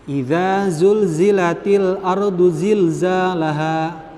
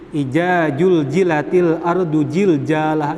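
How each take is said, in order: First: The z sounds are pronounced as z. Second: The z sounds are pronounced as j. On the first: The speaker calls it right. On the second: The speaker calls it wrong.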